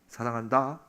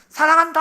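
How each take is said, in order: First: It is said softly and warmly, close up. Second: It is said very loudly, as if shouting. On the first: The speaker is right beside the listener as a friend. "찡긋 웃으시는 거예요" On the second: The speaker is calling from far away. "가장 큰 소리로"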